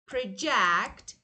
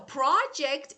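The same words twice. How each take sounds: First: The stress is on the second syllable. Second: The stress is on the first syllable. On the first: It is the verb. "But project is verb" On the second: It is the noun. "So project is noun"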